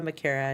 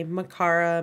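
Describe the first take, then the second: First: "Makara" with an AIR middle vowel; stressed middle of "Makara" rhymes with care; own name pronunciation. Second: "Makara" with an AH middle vowel; stressed middle of "Makara" rhymes with car; others' pronunciation. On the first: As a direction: say "Makara" as muh-KAIR-uh. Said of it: "My last name is Makara". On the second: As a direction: say "Makara" as muh-KAR-uh. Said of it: "People like to say". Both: Shown as a demonstration.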